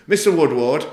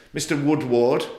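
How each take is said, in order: First: "Mister Woodward" called out louder and higher, rising; loud, raised judge's call of "Mister Woodward"; imitating the judge. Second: Said in the usual way. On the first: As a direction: mimic the judge addressing him from the bench. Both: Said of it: "and this is how he said it".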